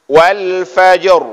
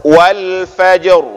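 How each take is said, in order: No difference in how they are said.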